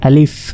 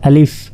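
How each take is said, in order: The two takes are said the same way.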